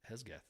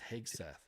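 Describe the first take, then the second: First: The s sound comes before the g. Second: The g sound comes before the s. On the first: The speaker calls it wrong. "Hesgeth is what I said" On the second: The speaker calls it right. "It's Hegseth"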